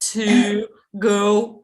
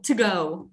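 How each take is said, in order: First: Every word is pronounced fully and separately. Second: The word 'to' is weakened and run together. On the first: The speaker calls it wrong. "They don't say it like that" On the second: The speaker calls it right. "they do not say every word"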